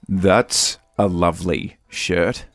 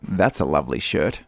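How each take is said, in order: First: It is said slowly. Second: It is said at normal speed.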